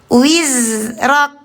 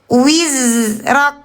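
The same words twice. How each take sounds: Both takes have the same delivery.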